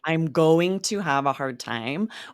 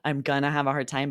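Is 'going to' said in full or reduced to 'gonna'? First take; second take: full; reduced. First: Going to is said in full. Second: Going to is reduced to gonna. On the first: "We're really saying" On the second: "often we drop the "g""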